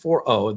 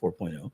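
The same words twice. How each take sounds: First: Four is followed directly by the letter O. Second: A spoken 'point' comes between four and oh. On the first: The speaker calls it right. "It's 4.0. The O stands for Omni" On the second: The speaker calls it wrong. "as you many of you are calling it 4.0, is not 4.0"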